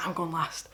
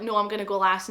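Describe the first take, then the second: First: Low, soft retort in a hint of Glaswegian; Glaswegian accent. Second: Said in the usual way. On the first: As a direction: lightly turn Glaswegian for the comeback. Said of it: "I turned really Glaswegian". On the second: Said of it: "she was like".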